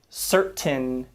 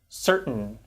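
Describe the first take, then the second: First: The T is a fully released T sound. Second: The T is cut off as a glottal stop. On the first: The speaker calls it wrong. "We don't say" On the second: The speaker calls it right. "but we tend to say"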